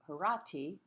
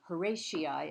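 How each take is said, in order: First: The name is said the Latin way. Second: The name is said the common English way. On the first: "the Latin pronunciation would be" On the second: "as it's commonly called"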